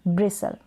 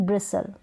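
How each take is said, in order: The two takes are said the same way.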